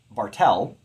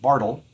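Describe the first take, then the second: First: Bartel said bar-TELL, second syllable strong; light BAR, stressed TEL in Bartel; iambic stress. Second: Bartle said BAR-tle, first syllable strong; stressed BAR, light tle in Bartle; trochaic stress. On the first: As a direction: hit the last syllable of Bartel. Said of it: "would be unstressed, stressed". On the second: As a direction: hit the front of Bartle. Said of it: "that would be a trochee". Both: Shown as a demonstration.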